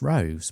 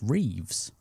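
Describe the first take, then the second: First: The surname sounds like 'rose'. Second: The surname sounds like 'reeves'. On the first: The speaker calls it wrong. "I've always called him Maurice Rose" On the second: The speaker calls it right. "it turns out it's actually pronounced Reeves"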